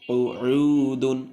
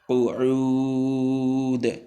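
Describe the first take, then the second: First: The word ends with an added 'un' sound. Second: The word ends on a bare final consonant. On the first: The reader continues without stopping. "না থামলে" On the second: The reader stops on this word. "আর থামলে"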